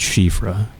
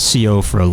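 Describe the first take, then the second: First: The name starts with a sh sound. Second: The name starts with a plain s sound. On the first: The speaker calls it right. "I think it's Shifra" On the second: The speaker calls it wrong. "It's not Siofra like it looks"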